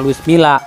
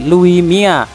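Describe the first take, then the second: First: The double L sounds like an L. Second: The double L sounds like a Y. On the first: The speaker calls it wrong. "tulisannya Luis Milla. Tapi kalau orang Spanyol itu dibacanya bukan Luis Milla" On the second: The speaker calls it right. "kalau orang Spanyol itu dibacanya ... tapi Louis Mia"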